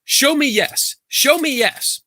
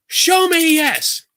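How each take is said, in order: First: High-pitched mock incantation; high, insistent retold command; imitated dowser's command. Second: Very high, stretched-out mock demand; slow, high, frustrated imitation; exasperated dowser's command. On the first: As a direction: imitate a woman commanding her rods. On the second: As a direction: imitate her straining to command the rods. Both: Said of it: "She's like".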